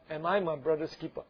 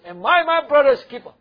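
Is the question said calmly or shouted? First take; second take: calmly; shouted. First: The question is said in a calm, even voice. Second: The question is said loudly, with a raised voice. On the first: The speaker calls it wrong. "don't read it like that" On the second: The speaker calls it right. "Cain is actually shouting at God. Raise his voice"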